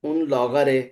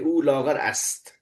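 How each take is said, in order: First: The ending is shortened to a final 'e' sound. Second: The phrase is said in full, ending with 'ast'. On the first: This is how ordinary people speak. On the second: This is the formal written form.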